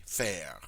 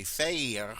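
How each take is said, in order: First: Faire with the short open E, like fair; easy faire demo. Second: Faire said with a long A, like fay-r; awkward faire demo. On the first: Teacher showing students the smooth short E in faire. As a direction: let faire flow with the short E vowel. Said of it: "it flows very easily to say faire". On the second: Teacher showing students the clumsy long A in faire. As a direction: force the stiff long A vowel into faire. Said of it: "it's very difficult to say faire". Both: Shown as a demonstration.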